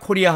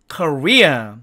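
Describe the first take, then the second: First: It is said with a Korean pronunciation. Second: It is said with an American English pronunciation. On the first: The speaker calls it wrong. "우리가 보통 우리나라 한국을, 대한민국을 코리아 코리아 하는데 영어로는 코리아가 아니고요" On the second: The speaker calls it right. "이것이 정확한 한국이라는 뜻의 미국식 영어 발음입니다"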